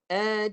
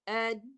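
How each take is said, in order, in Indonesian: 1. Bunyi n membawa dengung hidung yang ditahan. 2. Bunyi n berhenti begitu saja tanpa dengung hidung. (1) "Bila saya sempurnakan suara suara dengungnya" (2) "kalau kalau tak masuk hidung bunyi macam ni"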